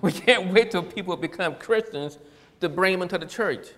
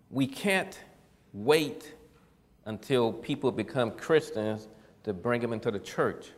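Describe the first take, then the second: First: Louder, higher, run together without long pauses; emphatic repeat. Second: Deliberate, broken up with long pauses; measured first statement. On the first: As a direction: drive the point home forcefully. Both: Real, not acted. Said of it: "Do I need to say that again?".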